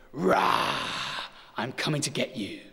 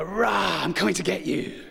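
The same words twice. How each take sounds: First: Breathy growled rah, then a light mock monster threat; a dad playing monster for his kids, gently; playful monster roar. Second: Put-on ramp up the game, scare the kids more; louder monster roar. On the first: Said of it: "and I go". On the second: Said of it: "I go".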